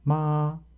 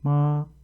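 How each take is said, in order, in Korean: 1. 음이 처음부터 끝까지 높고 평평하게 유지됩니다. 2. 음이 처음부터 끝까지 높고 평평하게 유지됩니다.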